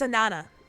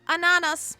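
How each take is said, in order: First: The final S sound is left silent. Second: The final S sound is pronounced. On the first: The speaker calls it right. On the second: The speaker calls it wrong.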